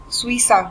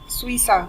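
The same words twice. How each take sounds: The two takes are said the same way.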